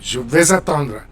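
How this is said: The words run together in one stream.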